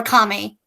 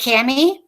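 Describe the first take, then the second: First: Kami said as "KAH-mee"; first vowel as in father. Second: Kami said as "KAM-ee"; first vowel as in cat. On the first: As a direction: say Kami with an open "ah". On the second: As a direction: say Kami with a short a, like "cammy". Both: Shown as a demonstration. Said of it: "is it Kami or Kami".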